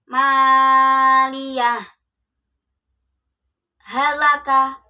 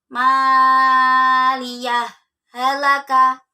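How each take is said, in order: First: A brief pause without breath separates the words. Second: The words are joined without any break. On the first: "Contohnya ketika saktah" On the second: "Ketika wasol"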